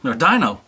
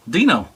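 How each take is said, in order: First: "Dino" said dye-no with a long i; "Dino" pronounced dye-noh, falling. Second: "Dino" said dee-no with a long ee; "Dino" pronounced dee-noh, falling. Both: Shown as a demonstration. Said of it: "I always call him Dino".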